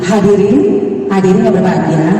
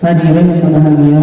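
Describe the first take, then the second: First: The vowels are articulated clearly and crisply. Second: The vowels are mumbled and unclear. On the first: The speaker calls it right. "kan lebih enak seperti itu ya" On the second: The speaker calls it wrong. "kan nggak enak"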